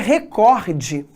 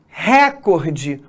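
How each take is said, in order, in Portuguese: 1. A tônica está em uma sílaba posterior. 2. A tônica está na primeira sílaba. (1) "O correto é recorde" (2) "essas palavras não existem"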